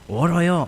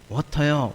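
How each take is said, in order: First: The middle consonant is a soft r-like flap. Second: The middle consonant is a clear t sound.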